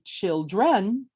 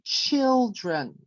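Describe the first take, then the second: First: The stress is on the second syllable. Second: The stress is on the first syllable. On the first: The speaker calls it wrong. "We don't say children" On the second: The speaker calls it right. "So the stress is on the first syllable"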